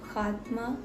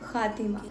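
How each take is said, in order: First: It is said as two syllables, khaat-ma. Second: It is said as three syllables, khaa-ti-ma. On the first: The speaker calls it wrong. "गलत तलफ़ुज़ का खात्मा नहीं" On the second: The speaker calls it right. "खातिमा कर दीजिए"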